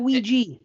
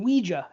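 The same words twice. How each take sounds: First: The word ends with a 'jee' sound. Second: The word ends with a 'jah' sound. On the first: The speaker calls it wrong. "not Ouija" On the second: The speaker calls it right. "call it Ouija"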